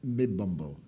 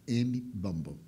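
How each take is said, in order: First: Said in the usual way. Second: "M Bambo" with the M said as its own letter; name sounded out. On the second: Shown as a demonstration. Speaker clarifying a foreign name to listeners, "M Bambo" sounded out in two parts. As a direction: split "M Bambo" into letter M, then Bambo. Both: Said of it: "O nome dele é".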